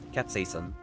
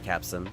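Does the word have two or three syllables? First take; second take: three; two. First: The word is said with three full syllables. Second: The word is shortened to two syllables. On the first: The speaker calls it right. "that's what it's pronounced" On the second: The speaker calls it wrong. "not capsin"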